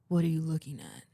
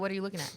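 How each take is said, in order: First: It is said in a low, deep voice. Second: It is said in a normal voice.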